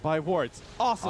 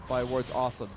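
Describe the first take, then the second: First: There is a break before 'awesome'. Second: It runs together as one phrase.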